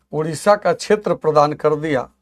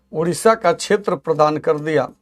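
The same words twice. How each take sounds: Both takes have the same delivery.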